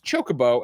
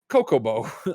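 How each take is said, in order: First: The word begins with a 'ch' sound. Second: The word begins with a 'k' sound.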